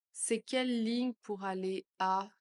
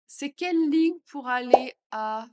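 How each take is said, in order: First: Said in the usual way. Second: Louder question; louder take. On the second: Shown as a demonstration. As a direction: ask it out loud. (plus fort) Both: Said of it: "phrase modelled twice".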